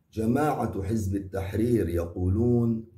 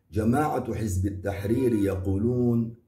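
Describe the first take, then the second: Both takes have the same delivery.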